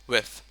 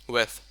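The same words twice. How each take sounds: Both takes have the same delivery.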